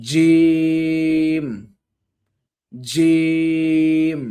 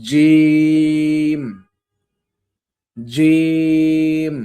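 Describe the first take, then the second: The two takes are said the same way.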